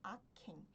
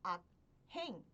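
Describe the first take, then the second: First: The middle consonant is an aspirated k sound. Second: The middle consonant is an h sound. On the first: The speaker calls it right. "pronunciou como" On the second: The speaker calls it wrong. "Ao invés de pronunciar como"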